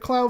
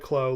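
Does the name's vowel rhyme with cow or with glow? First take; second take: cow; glow. First: The vowel sounds like the one in cow. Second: The vowel sounds like the one in glow. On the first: This is how the English dub says it. The speaker calls it wrong. "I've said clow for years because that's how Card Captors pronounces it" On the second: This matches how the name is written in Japanese. The speaker calls it right. "it's supposed to be like klo, like you know, glow"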